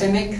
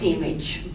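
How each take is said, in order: First: The name is pronounced the usual American way. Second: The name is pronounced the Serbian way. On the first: "in this country um, it is generally pronounced" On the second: "in Serbian it's"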